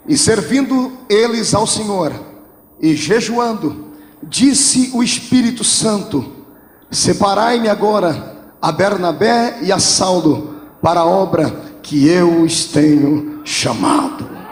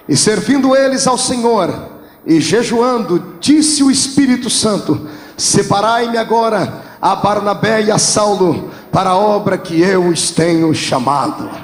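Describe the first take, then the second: First: It is read with little excitement. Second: It is read with more excitement.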